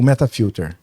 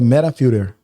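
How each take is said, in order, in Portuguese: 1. É dito com sotaque brasileiro. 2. É dito com sotaque americano. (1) "Nós adotamos aqui o" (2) "O americanizado é"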